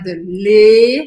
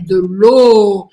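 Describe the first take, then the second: First: The final vowel is an 'e' sound. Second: The final vowel is an 'o' sound. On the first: The speaker calls it wrong. "não é de le" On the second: The speaker calls it right. "é de l'eau. Esquece que tem uma letra E aí"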